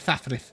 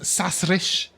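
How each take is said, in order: First: The s sounds are lisped as th sounds. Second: The s sounds are said clearly, without lisping. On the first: This is how its bearer says it. "he can only say it Thathrith" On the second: This is the name's real form. "his name is Sasrish"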